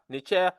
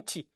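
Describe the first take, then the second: First: The word has a vowel and a ch-sound. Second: The word has a t-sound with no vowel. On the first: This is not how the word was pronounced. The speaker calls it wrong. "non pas Necher" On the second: This is the later form of the word. The speaker calls it right. "puis Nti"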